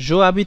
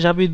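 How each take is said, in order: First: The vowel of je is kept separately. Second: The vowel of je is dropped and linked. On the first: The speaker calls it wrong. "জো আবিদ থেকে জাবিদ বেশি সুন্দর শোনা যায়" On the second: The speaker calls it right. "জাবিদ বেশি সুন্দর শোনা যায়"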